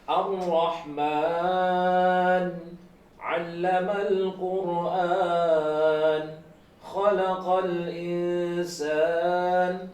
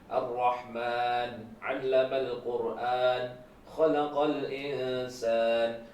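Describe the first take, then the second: First: It is recited at a slow pace. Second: It is recited at a moderate pace. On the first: "ini lebih pelan lagi gitu" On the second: "Berarti agak pelan"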